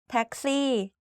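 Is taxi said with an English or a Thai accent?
Thai. The word is said with Thai tones and sounds. "like the same word, just like different accent"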